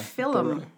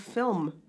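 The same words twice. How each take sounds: First: The word is said with two syllables. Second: The word is said with one syllable. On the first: The speaker calls it wrong. "People call it film instead of" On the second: The speaker calls it right. "it's one syllable"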